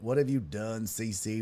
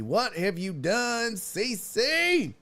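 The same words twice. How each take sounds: First: Quieter, restrained mock reproach; understated "what have you done"; low-key dismay. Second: High, slow mock-horrified reproach; hammed-up rising lament; theatrical dismay. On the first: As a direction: say it half to yourself in dismay. First take of mock reproach. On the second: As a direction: draw it out, climbing to the name. Repeats reproach, building theatrically.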